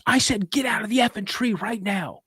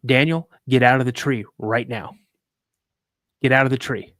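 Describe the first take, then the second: First: High, forceful imitation of a furious dad; retold angry outburst, pitched way up; angry repeated order. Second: Firm order. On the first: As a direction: order the kid down, out of patience. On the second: Retold or imitated. Dad's first firm order, retold.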